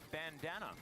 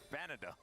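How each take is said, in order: First: The word has an n before the d. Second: The word has no n before the d.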